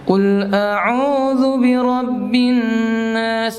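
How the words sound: The voice comes out through the nose. The speaker calls it wrong. "Lewat hidung dia"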